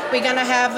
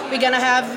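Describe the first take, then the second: No difference in how they are said.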